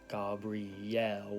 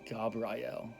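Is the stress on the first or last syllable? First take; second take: last; first. First: The stress is on the last syllable. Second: The stress is on the first syllable. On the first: "with a accent at the end" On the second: "It's more like Gab"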